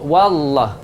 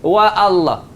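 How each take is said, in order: First: Wa runs straight into Allah with no break. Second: A glottal break separates wa from Allah. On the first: The speaker calls it right. "Hamzah tu tak ada bunyi dah" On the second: The speaker calls it wrong. "kalau salah wa Allah, yang tu salah"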